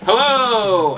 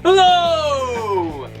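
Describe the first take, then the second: First: It is said with little energy. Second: It is said with lots of energy.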